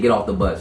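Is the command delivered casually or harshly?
casually. It is said in a relaxed, ordinary tone. It comes across as a neutral request. "if I say"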